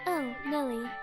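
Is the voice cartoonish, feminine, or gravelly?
gravelly. A young man's voice with extra vocal fry. "It needs a little more fry"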